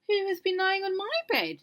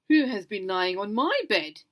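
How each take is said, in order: First: Mother Bear's line is said in a medium voice. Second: Father Bear's line is said in a very loud voice.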